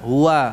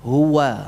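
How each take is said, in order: First: The w sound comes from deep in the throat. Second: The w sound is formed with both lips. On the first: The speaker calls it wrong. "Bukan diucapkan dari jauh seperti ham, uh, alif" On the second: The speaker calls it right. "wawunya itu benar-benar dari apa? Bibir"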